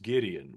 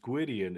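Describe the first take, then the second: First: The name is pronounced the English way. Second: The name is pronounced the Welsh way. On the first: The speaker calls it wrong. "I was raised with it being pronounced Gideon, which is technically incorrect" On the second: The speaker calls it right. "if you were to pronounce it Welshly"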